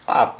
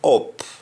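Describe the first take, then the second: First: The vowel is the standard English 'uh' sound. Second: The vowel is pronounced like an 'o' sound. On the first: "instead of up" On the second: "we say up"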